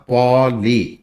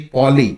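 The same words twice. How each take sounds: First: पॉली said slowly, stopping short on the ऑ; slowed demo. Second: Said in the usual way. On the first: Shown as a demonstration. Teacher slowly showing correct पॉली. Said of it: "खाली ऑ पे sound रुक जाती है". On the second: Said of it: "पॉली तो बोलते नहीं".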